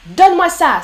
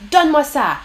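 First: A commanding demand, higher and louder; order. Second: Said in the usual way. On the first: Shown as a demonstration. Teacher voicing a chat order to the class. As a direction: bark it like an order. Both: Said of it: "Ça, c'est un ordre".

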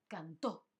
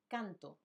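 First: Cantó with stress on the rising final ó; stress on final syllable. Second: Canto with stress on CAN and a falling end; stress on first syllable. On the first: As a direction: say cantó as can-TÓ. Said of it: "está acentuado". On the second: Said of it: "no hay tilde". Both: Shown as a demonstration.

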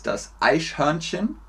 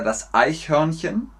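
First: "Eichhörnchen" softly, with sh replacing ch; mispronunciation demo. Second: "Eichhörnchen" with palatal ch instead of sh; correct ich-sound. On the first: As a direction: say "Eichhörnchen" as "Eisch-hörnchen", rising at the end. ("Eichhörnchen" falsch mit sch gesprochen) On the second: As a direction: say "Eichhörnchen" with a clean ch, rising at the end. ("Eichhörnchen" mit richtigem Ich-Laut, nicht sch) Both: Shown as a demonstration. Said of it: "Hört ihr den Unterschied?".

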